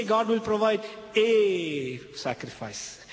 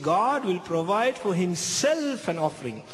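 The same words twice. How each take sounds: First: "a sacrifice" said slowly, as the line he did not say; half-mocking wrong quote; the wrong version. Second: "an offering" said plainly, as the true line; confident correction; the right version. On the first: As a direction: set it apart as the rejected wording, slow. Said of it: "He didn't say". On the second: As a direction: land firmly on the correct wording. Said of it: "He said". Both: Shown as a demonstration.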